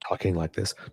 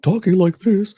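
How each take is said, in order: First: The voice is calm and relaxed. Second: The voice is loud and agitated. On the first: He was composed and poised. The speaker calls it right. "was calm and relaxed and talking like this" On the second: This is how he usually behaves. The speaker calls it wrong. "not talking like this"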